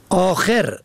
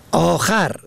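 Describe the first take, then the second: First: آخر said akher, short e on the second letter; آخر pronounced âkher; kasra on second. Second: آخر said âkhar, short a on the second letter; آخر pronounced âkhar; fatha on second. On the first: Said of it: "به کسر دوم". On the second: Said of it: "به فتح دوم". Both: Shown as a demonstration.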